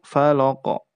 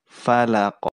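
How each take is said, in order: First: The f and l sound heavy and thick. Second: The f and l sound light and thin. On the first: The speaker calls it wrong. "itu menjadi tebal juga" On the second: The speaker calls it right. "Padahal harus tipis"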